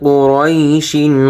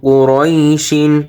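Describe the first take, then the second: Both takes have the same delivery.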